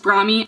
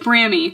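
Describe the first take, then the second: First: The first vowel rhymes with 'bra'. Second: The first vowel rhymes with 'cami'. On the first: It follows the word bra. "bra is Brami" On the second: It follows the word cami. "Cami is like Brami"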